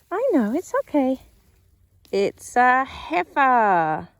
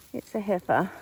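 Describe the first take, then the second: First: Much higher, louder, slow cooing. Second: Said in the usual way. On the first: Real, not acted. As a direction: soothe the calf while checking it. Soothing calf while checking.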